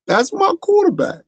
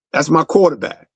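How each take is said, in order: First: Much higher, emotional cry of praise; Terrell Owens impression. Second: Said in the usual way. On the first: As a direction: gush it like a star receiver close to tears. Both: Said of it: "In my Terrell Owen voice".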